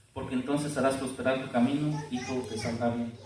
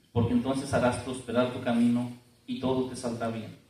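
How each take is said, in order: The two takes are said the same way.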